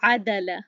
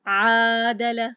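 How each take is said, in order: First: The first vowel is short, not drawn out. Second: The first vowel is stretched and drawn out. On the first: The speaker calls it right. "तो ये तरीका सही है।" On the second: The speaker calls it wrong. "तो ये गलत हो गया। ... मैं उसको क्यों खींच रही हूँ?"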